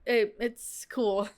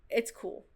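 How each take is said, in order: First: It is said hesitantly, sounding concerned. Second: It is said plainly and casually.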